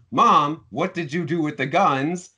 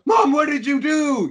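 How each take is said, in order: First: Concerned questioning. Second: High, loud, horrified mock cry; shocked. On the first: Retold or imitated. Son asking Mom about missing guns, mildly alarmed. Suggests how son should have reacted. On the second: Son discovering the guns are gone, shocked. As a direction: cry out to Mom in acted shock. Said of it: "this shocking moment of".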